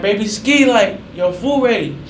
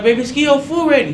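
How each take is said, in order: First: Higher, louder call, slow and drawn out. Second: Much higher, louder repeat call. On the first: Uncle calling his nephew that food is ready, drawn-out call. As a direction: call the kid to the table. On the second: Uncle calling again after no answer, louder impatient call. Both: Retold or imitated.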